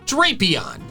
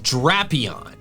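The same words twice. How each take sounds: First: The first syllable has a long A, like drape. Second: The first syllable has a short A, like drag. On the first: The speaker calls it wrong. "I saw D R A P and my brain immediately went to drapes" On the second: The speaker calls it right. "The official pronunciation is Drapion"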